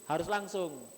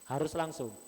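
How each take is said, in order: No difference in how they are said.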